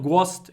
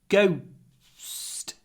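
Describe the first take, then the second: First: The vowel stays one plain sound. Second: The vowel glides toward a w sound. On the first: The speaker calls it wrong. "It's not ghost" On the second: The speaker calls it right. "There's a what in it. G, a, w, little pause, st"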